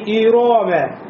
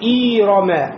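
First: The second vowel is drawn out long. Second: The first vowel is drawn out long. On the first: "как будто после ро появился алиф, нельзя" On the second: "как будто после хамза появилась буква я, нельзя"

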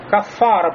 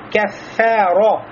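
First: The kaf and fa sound heavy and thick. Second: The kaf and fa sound light and thin. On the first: The speaker calls it wrong. "некоторые арабы даже говорят как «кафара»... они делают «фэ» тоже широким, и «кэф» делают широким. Это ошибка" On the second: The speaker calls it right. "проявляем заботу о тонкости звуков «каф» и «фа»"

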